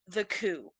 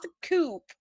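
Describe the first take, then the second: First: The word ends with a vowel sound. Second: The word ends with a p sound. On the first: The speaker calls it right. "it's French, so it's the coup" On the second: The speaker calls it wrong. "not the coupe, which is how I would"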